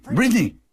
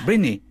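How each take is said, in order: First: High, louder call across heaven; calling out too loud. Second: Said in the usual way. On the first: Acted. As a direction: call her name out eagerly. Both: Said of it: "no hables tan alto en los cielos".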